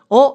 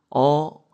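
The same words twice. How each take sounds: First: It is said quickly and sharply. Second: It is said slowly and softly. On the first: The person is not gentle. The speaker calls it wrong. "이렇게 하는 게 아니라" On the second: The person is gentle. The speaker calls it right. "약간 한 템포씩 느린 거예요"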